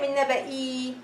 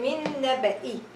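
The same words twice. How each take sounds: First: The final vowel of naba'i is held long. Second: The final vowel of naba'i is kept short. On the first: The speaker calls it wrong. "So I'm not going to say min naba'i. I know it's a long vowel ya" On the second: The speaker calls it right. "I will read it with one haraka and I will ignore this ya"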